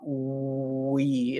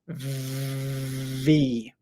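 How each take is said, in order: First: It starts with rounded lips, like a W. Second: It starts with teeth on the lip, voiced. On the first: The speaker calls it wrong. "It's not we" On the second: The speaker calls it right. "it's V"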